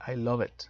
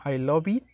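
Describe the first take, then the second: First: "I love it" run together as ai-LO-vit; linked pronunciation. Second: "I love it" sounded out with a full "o" and "eet"; spelling pronunciation of "I love it"; pronounced as spelt. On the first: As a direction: link "love" into "it" in "I love it". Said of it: "es normal que quede en esta palabra". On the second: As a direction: read "I love it" letter by letter, lo-beet. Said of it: "Sé que se escribe como". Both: Shown as a demonstration.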